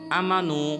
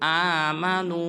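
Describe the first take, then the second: First: The first vowel is short. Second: The first vowel is long. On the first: The speaker calls it wrong. "ये बिल्कुल गलत है" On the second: The speaker calls it right. "हमज़ा के ऊपर खड़ा ज़बर है"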